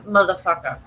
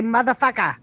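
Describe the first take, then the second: First: "motherfucker" with the final R sounded; R pronounced. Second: "motherfucker" with no final R, ending in "-ah"; R dropped. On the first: Suggesting a button catchphrase, "motherfucker" with its R. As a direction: say "motherfucker" ending on an R. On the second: Correcting a friend's pronunciation, "motherfucker" without the R. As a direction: drop the R: "motherfucker" as "muthah-fuckah". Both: Shown as a demonstration. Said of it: "You can't say the R, though".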